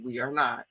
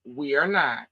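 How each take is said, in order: First: "not" pressed down with a falling finish; "We are not" with a flat, final fall on "not"; firm denial. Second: "We are not" again, "not" stretched and falling; repeated for emphasis. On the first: Real, not acted. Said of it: "firm denial". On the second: Shown as a demonstration. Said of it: "I'm gonna say it again".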